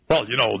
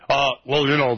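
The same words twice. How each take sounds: First: It is said in an ordinary speaking voice. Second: It is said in a put-on broadcaster voice.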